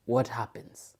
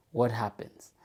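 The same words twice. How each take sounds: The two takes are said the same way.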